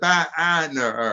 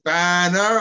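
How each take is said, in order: First: "banner" stretched into ba-a-ner; split BA with extra ah. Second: "banner" with a single unbroken first syllable; one-syllable BA. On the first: Asking the choir singer, "banner" with ba split in two. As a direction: break the first syllable of "banner" with an added ah. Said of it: "without the ah". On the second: Asking the choir singer, "banner" with one syllable for ba. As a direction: sing out "banner" as ban-ner, no extra ah. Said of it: "one syllable for ba in banner". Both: Shown as a demonstration.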